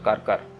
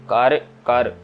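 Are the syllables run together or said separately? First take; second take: run together; separately. First: The syllables are run together into one short form. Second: Each syllable is pronounced separately and distinctly. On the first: The speaker calls it wrong. "कर कर नहीं कहना" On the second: The speaker calls it right. "अलग अलग ही पढ़ना है"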